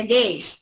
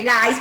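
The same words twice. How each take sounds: First: Gays pronounced GUEIS, with an ei diphthong; spoken form of gays. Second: Gays said as written, GAIS, with an a; slow gays with an ai diphthong; spelling reading of gays. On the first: Teacher shows how it is pronounced, gays as GUEIS. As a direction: say gays with e as in English. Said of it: "pero se pronuncia gays". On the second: Teacher shows how it is written, gays read as GAIS. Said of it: "se escribe gays". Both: Shown as a demonstration.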